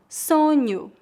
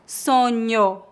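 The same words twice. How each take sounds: First: The final vowel sounds like 'oo'. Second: The final vowel sounds like 'oh'. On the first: The speaker calls it right. "a vogal O é pronunciada como U no final das palavras" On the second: The speaker calls it wrong. "Não dizemos sonho"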